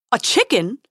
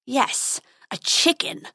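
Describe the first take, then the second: First: Loud, startled squeak. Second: Snarling. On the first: Prince loses his nerve before the dragon, squeaking. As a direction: squeak it as an indignant question. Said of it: "squeaked the prince". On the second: Dragon confirms his insult to the prince, snarling. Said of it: "snarled the dragon". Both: A narrator's reading.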